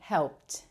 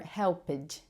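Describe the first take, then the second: First: The word ends with a clear t sound. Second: The ending is not a plain t sound. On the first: The speaker calls it right. "There's a t, t sound at the end" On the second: The speaker calls it wrong. "or helped"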